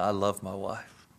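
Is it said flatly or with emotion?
with emotion. It is said emotionally, voice trembling.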